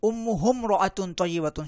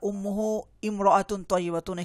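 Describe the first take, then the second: First: The initial 'i' is dropped, linking 'ummuhum-raatun'. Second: The initial 'i' of imraatun is clearly pronounced. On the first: The speaker calls it right. "এখানে শুদ্ধ উচ্চারণ হবে উম্মুহুম রাআতুন তয়্যিবাতুন" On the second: The speaker calls it wrong. "এখানে ইমরাআতুন হবে না"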